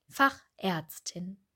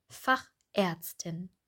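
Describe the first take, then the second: Both takes have the same delivery.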